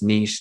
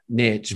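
First: The word does not rhyme with rich. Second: The word rhymes with rich. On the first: This is how others say it. "the Aussies and the Europeans would argue with me that it's niche" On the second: This is how the speaker says it. "not niche, but niche doesn't rhyme with rich"

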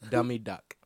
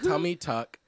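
First: The words start with a D sound. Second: The words start with a T sound.

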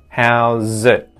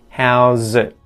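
First: The final T is stopped with the tongue tip. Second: The final T is stopped with the tongue tip.

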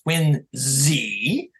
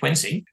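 First: The name is said the way locals say it. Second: The name is said the way most people say it. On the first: This is how people in the town itself say it. "the proper pronunciation, as people in that town in Massachusetts will tell you" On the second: This is how most outsiders say it. "though we all say Quincy"

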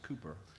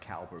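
First: The first syllable sounds like 'coo'. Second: The first syllable sounds like 'cow'. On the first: The speaker calls it right. "I believe it's pronounced Cooper" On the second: The speaker calls it wrong. "it was like Cowper"

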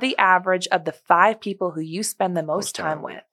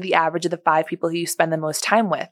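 First: It is spoken slowly and deliberately. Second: It is spoken at a normal, quicker pace.

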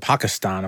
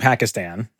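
First: The name is said with a native-like pronunciation. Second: The name is said with an anglicized pronunciation. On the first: The speaker calls it right. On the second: The speaker calls it wrong.

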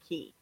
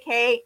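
First: The word rhymes with 'see'. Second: The word rhymes with 'day'. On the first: The speaker calls it right. "I need to start saying key" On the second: The speaker calls it wrong. "I always say K"

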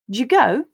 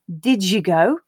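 First: The d and y merge into a j sound. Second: The d and y sounds stay separate. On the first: "we may also just get" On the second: "instead of did you go"

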